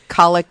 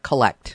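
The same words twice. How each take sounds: First: The stress is on the first syllable. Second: The stress is on the second syllable. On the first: It names a prayer of the Mass. The speaker calls it right. "the emphasis is on that first syllable" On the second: It means gathering, as in a collect call. The speaker calls it wrong. "not collect"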